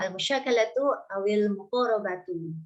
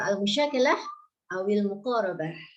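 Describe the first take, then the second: First: The final case vowels are pronounced fully. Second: The final vowels are dropped at word ends. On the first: It is read with full grammatical case endings. "ingin baca belajar i'rab berarti harus harus apa namanya dibaca akhirnya" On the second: It is casual everyday reading. "Kalau kita sekedar uh, baca gitu ... Dimatikan belakangnya"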